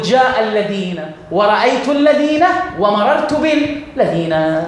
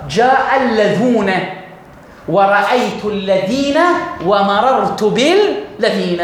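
First: Deliberate teaching example, الذين ending in īn throughout; ينطق الذين بالياء في الأحوال الثلاث; standard form. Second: Carefully spelled-out teaching example, اللذون ending in ūn; ينطق اللذون بالواو في الرفع والذين بالياء في النصب والجر; Hudhayl dialect form. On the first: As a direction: say الذين with the same -īn ending all three times. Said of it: "فأقول". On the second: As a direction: say اللذون with the -ūn ending after جاء, then الذين with -īn after رأيت and مررت. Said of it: "أقول هكذا". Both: Shown as a demonstration.

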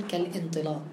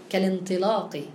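First: "كالانطلاق" split as "kal-intilaq", with a glottal stop; wrongly sounded hamza. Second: "كالانطلاق" joined as "kalintilaq", no glottal stop; linked hamzat wasl. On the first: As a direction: cut "كالانطلاق" before the i. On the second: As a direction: run "كالانطلاق" through without sounding the hamza. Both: Shown as a demonstration. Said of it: "هلا ما عادش فينا نقول".

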